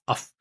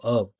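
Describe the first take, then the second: First: The word ends in a voiceless f sound. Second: The word ends in a voiced v sound. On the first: The speaker calls it wrong. "We never say uff uff uff uff uff uff. That doesn't exist" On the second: The speaker calls it right. "It's always of of of"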